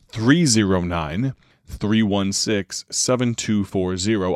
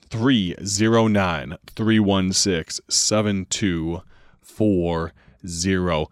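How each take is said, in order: First: It is said at normal speed. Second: It is said more slowly.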